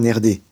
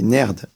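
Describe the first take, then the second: First: The word ends with a short vowel after d. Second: The word ends on the consonant d. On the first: The speaker calls it wrong. "on ne dit pas nerdé" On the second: The speaker calls it right. "on dit nerd"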